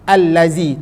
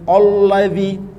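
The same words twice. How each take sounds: First: The L sound is light and thin. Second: The L sound is heavy and thick. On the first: The speaker calls it right. "dengan nipis lam tu" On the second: The speaker calls it wrong. "tak sebut"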